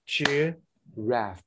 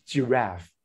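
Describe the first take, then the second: First: "giraffe" in two spaced beats, weight on the second; stressed second syllable. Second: Said in the usual way. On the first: Shown as a demonstration. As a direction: clap out "giraffe", landing on its last syllable. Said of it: "because the second syllable is stress". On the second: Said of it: "they're gonna act like this".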